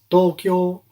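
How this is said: It is said in a Japanese style.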